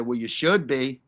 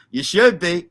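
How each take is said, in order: First: Said in the usual way. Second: You should be with "should" hit harder and louder; stress on should. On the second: Real, not acted. Streamer repeating his retort to Sloth, pressing on "should". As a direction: lean into "should" and mean it. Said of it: "And I'm serious".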